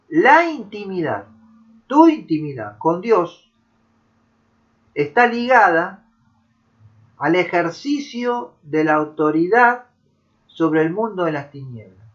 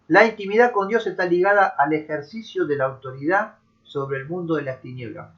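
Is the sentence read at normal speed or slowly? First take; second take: slowly; normal speed. First: It is read slowly. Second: It is read at normal speed.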